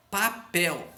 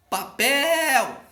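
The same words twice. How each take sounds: First: Said in the usual way. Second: Pa-PÉÉÉL, alto e agudo; última sílaba forte. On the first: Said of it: "a última sílaba é a mais forte". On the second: Shown as a demonstration. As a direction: chame Papel esticando o PEL. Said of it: "pronuncia com mais força". (Papel com PEL forte e demorado)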